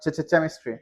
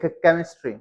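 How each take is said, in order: First: The word begins with a 'ch' sound. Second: The word begins with a hard 'k' sound. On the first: The speaker calls it wrong. "Not केमिस्ट्री" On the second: The speaker calls it right. "ये क क क क क क ही है, like केमिस्ट्री"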